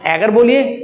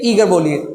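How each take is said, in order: First: एगर with a short open e; एगर, short first vowel; short e version. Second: ईगर with a long ee; ईगर, long first vowel; long ee version. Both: Shown as a demonstration. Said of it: "तो वो होता है एगर".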